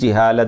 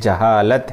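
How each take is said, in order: First: The word is said with Urdu-style vowels. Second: The word is said with Arabic-style vowels. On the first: The speaker calls it wrong. "कुछ उर्दू ज़दा हज़रात अरबी में भी जिहालत बोल देते हैं। ये सही नहीं है" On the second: The speaker calls it right. "बल्कि जहालत है।"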